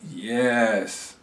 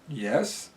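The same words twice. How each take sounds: First: It is said warmly, with sincere enthusiasm. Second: It is said in a doubtful, hesitant tone. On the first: The agreement is genuinely meant. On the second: The agreement is not really meant.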